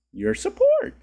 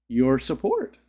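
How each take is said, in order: First: Very high squeaky falsetto; voice popping high. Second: Said in the usual way. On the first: Pretend. Streamer thanking a donor as his voice pops, high squeak. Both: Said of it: "My voice got".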